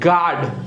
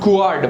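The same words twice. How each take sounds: First: No U sound is pronounced after the G. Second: A U sound is pronounced after the G. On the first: The speaker calls it right. "but guard" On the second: The speaker calls it wrong. "Not guard"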